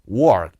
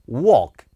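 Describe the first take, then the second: First: It is said with an American R sound. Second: It is said British-style, without an R.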